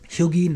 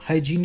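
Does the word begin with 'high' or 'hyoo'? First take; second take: hyoo; high. First: The word begins with a 'hyoo' sound. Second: The word begins with a 'high' sound. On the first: "ह्यूगीन करके बोलते हैं" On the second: "हाइजीन को ह्यूगीन करके बोलते हैं"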